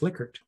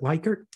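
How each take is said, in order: First: The name is said the namesake's own way. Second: The name is said the commonly used way. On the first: This is how the man himself said his name. The speaker calls it right. "he would say it's Likert" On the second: This is how most people say the name. The speaker calls it wrong. "everyone wants to pronounce it Likert"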